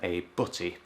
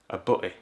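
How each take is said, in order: First: The t sound in the middle is clearly pronounced. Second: The t sound in the middle is dropped. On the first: "rather than a butty" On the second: "I wouldn't necessarily pronounce the T's"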